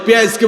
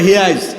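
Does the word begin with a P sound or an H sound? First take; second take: P sound; H sound. First: The word begins with a P sound. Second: The word begins with an H sound.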